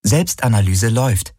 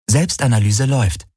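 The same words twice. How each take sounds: First: Even machine voice, stress on "läuft"; the ship AI reports its status, "läuft" landing with a falling close; artificial ship voice. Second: Even machine voice, stress on "Selbstanalyse"; artificial ship voice. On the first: Ship AI answers Galen over the comm, lightly voiced machine. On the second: Ship AI repeats its status to Galen, lightly voiced machine. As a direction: repeat the status line, leaning on "Selbstanalyse" and falling at the end. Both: A narrator's reading. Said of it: "sagte die künstliche Stimme der Vago".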